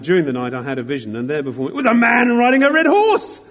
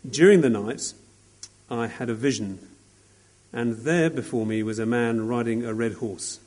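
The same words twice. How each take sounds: First: It is read with excitement and amazement. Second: It is read in a flat, plain way.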